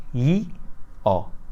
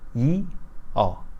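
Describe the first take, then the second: Both takes have the same delivery.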